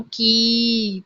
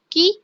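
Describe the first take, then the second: First: की with a slow, drawn-out ee; long ee sound. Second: की with a quick, short ee; short i sound. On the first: Teacher showing students the long vowel in की. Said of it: "बड़ी ई". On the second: Teacher showing students the short vowel in की. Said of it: "छोटी ई". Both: Shown as a demonstration.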